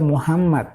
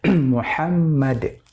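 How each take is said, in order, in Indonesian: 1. Huruf h di tengah diucapkan sebagai h Indonesia biasa. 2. Huruf h di tengah diucapkan sebagai h Arab. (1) "itu salah ... Muhammad itu bahasa Indonesia" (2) "yang benar Muhammad dengan huruf H"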